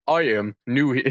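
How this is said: It is spoken in a put-on character accent.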